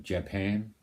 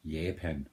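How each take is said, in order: First: "Japan" with the English J, "juh-PAN"; English pronunciation. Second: "Japan" with a Y sound, "YAH-pan", slower; Danish pronunciation. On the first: Danish speaker contrasting the English way, "Japan" with a J. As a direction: say "Japan" the English way, hard J sound. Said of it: "English people are saying Japan". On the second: Danish speaker showing his own country's way, "Japan" as "Yah-pan". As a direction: give "Japan" a soft Danish Y start. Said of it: "We say Japan". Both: Shown as a demonstration.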